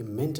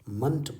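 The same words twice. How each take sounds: First: मेंट with a full clear e vowel; मेंट said the wrong, spelled-out way; wrong reading ment. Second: मंट with a short neutral uh vowel; मंट as in abandonment; correct reading munt. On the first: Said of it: "ये मेंट नहीं पढ़ा जाता है". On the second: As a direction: say मंट, reduced vowel, not ment. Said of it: "मंट पढ़ा जाता है". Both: Shown as a demonstration.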